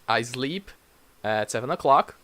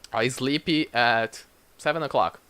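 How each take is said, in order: First: The final p is soft with no vowel. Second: An extra vowel follows the final p sound. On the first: The speaker calls it right. "a puff of air" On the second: The speaker calls it wrong. "we try to put a e sound at the end"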